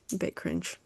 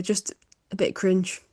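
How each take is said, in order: First: Much softer repeat of cringe; soft afterthought, a bit cringe; muttered under breath. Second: Said in the usual way. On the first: Real, not acted. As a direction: drop to a murmur on cringe.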